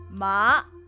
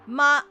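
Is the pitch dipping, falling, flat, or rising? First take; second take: rising; flat. First: The pitch rises from middle to high. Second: The pitch stays level and high. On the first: "it goes upward" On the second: "it's a flat tone"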